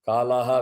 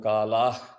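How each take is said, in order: First: The final syllable ends with a full 'ha' vowel. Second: The final syllable ends in a clipped 'h' sound. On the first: The words are recited separately. "காலாஹா வில் become காலாஹ்" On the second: The words are recited joined together. "இது நான் சேர்த்து சொல்றது"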